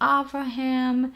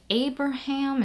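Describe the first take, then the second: First: The second consonant is a V sound. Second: The second consonant is a B sound.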